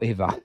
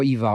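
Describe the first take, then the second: First: Eva opening on an AY sound. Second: Eva opening on a long ee. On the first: Co-host drops both confusing names, Eva as AY-va. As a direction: say Eva like Ava, AY-va. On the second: Co-host drops both confusing names, Eva as EE-va. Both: Shown as a demonstration. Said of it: "No more Eva or Eva".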